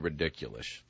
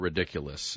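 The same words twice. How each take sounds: First: The word ends with an sh sound. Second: The word ends with an s sound. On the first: The speaker calls it wrong. "There's no S H at the end of it" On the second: The speaker calls it right. "ridiculous is how that word is said"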